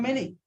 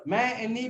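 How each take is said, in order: First: Said in the usual way. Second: "many" sounded as ma and nee, high; syllable by syllable. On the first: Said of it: "ma, any become many". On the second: Shown as a demonstration. Teacher joining two syllables into a word, syllable by syllable. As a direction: split "many" into two beats. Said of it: "So two syllable".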